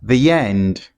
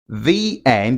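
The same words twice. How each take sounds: First: A y sound links the two words together. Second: The words are said separately without a linking sound.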